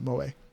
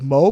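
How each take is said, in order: First: It is pronounced the Japanese way. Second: It is pronounced like the English word Mo. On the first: The speaker calls it right. "it's Japanese, so you pronounce it Moe" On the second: The speaker calls it wrong. "spelled M O E like Mo"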